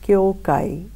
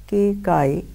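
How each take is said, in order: First: The first syllable sounds like 'kyo'. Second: The first syllable sounds like 'kei'. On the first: This is the name as handed down. "His name, which comes down to us, is" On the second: Some people read the name this way. "Some pr pronounce it as"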